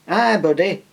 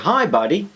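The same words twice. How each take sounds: First: It is said in a Yorkshire accent. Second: It is said in an American accent. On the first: "No, that's more Yorkshire" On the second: "whenever I say buddy, I, I try and do an American accent"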